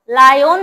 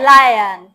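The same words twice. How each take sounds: First: "লায়ন" with a rounded o in the second syllable; wrong pronunciation. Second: "লায়ন" as a loud, low la-yan; corrected pronunciation. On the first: Teacher showing pupils the mistake, "লায়ন" ending in a full -on. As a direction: say "লায়ন" as la-yon. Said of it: "লায়ন না". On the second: Teacher correcting pupils, "লায়ন" loudly ending in -an. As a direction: say "লায়ন" with an unrounded second vowel. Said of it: "it's লায়ন". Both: Shown as a demonstration.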